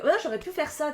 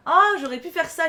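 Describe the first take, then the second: First: Said in the usual way. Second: Sudden realization. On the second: Real, not acted. Repeats realization, louder.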